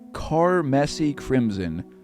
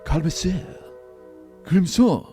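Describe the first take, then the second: First: It is said in a plain English accent. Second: It is said with a French-style accent.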